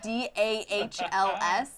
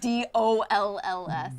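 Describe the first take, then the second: First: Spelling out D A H L S, slow; D A H L S letter by letter; dahls spelling. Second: Spelling out D O L L S; D O L L S letter by letter; dolls spelling. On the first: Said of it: "You're saying D A H L S". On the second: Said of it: "you should be saying D O L L S". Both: Shown as a demonstration.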